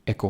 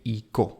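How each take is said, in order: First: The first vowel sounds like 'eh'. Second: The first vowel sounds like 'ee'. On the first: The speaker calls it right. "एको बोलते हैं" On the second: The speaker calls it wrong. "इको नहीं बोलते हैं"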